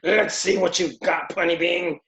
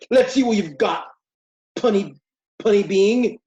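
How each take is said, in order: First: It is said in a changed voice for Mongul. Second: It is said in the voice used for Superman.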